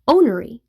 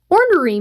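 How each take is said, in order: First: The first R sound is left out. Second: The first R sound is pronounced.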